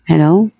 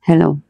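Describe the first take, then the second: First: Background noise is filtered out around the voice. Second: Background noise is heard around the voice. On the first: The speaker calls it right. "nag-green na ulit" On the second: The speaker calls it wrong. "off ko, tingnan natin sobrang ingay niya"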